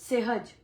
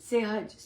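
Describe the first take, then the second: The two takes are said the same way.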